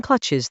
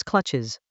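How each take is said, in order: First: Said in the usual way. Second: "clutches" dropped low and drawn out like a villain; villainous. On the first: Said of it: "Saying clutches that way". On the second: Acted. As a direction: purr "clutches" low and menacing, villain style. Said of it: "makes you sound like a villain".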